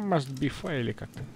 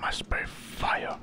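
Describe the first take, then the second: First: Said in the usual way. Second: Unvoiced, slow whisper of the game line; whispered echo. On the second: Streamer whispering back the hero's game line. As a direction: breathe the words out as he reads along.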